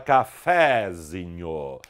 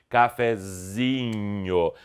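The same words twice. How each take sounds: First: The stress falls on the syllable fe. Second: The stress falls on the syllable zi. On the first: The speaker calls it wrong. "Você não fala cafezinho" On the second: The speaker calls it right. "e sim cafezinho. Esta passou a ser a sílaba tônica"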